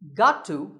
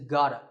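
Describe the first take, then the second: First: Each word is said clearly and in full. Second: The words blend together into one reduced form. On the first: "Got to can be reduced to" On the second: "reduced to gotta"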